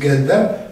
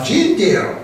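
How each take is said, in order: First: The word is read with Polish letter sounds. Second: The word is read with English sounds. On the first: "po polsku mówić gender" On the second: "jak z angielska, to trzeba gender"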